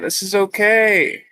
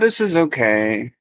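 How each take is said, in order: First: It sounds warm and genuinely enthusiastic. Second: It sounds grudging and unenthusiastic. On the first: It is truly good and appreciated. The speaker calls it right. "really have that genuine enthusiasm" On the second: It is merely tolerable, not truly good. The speaker calls it wrong. "wholesome thoughts in an unwholesome way"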